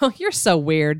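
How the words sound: It is said in a fond, laughing tone.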